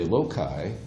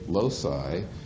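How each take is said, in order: First: It is pronounced the British way. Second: It is pronounced the American way. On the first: The speaker calls it right. "The British say loci. ... They're right" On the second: The speaker calls it wrong. "We say loci. We're wrong"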